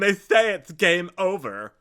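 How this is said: It is said in a put-on character voice.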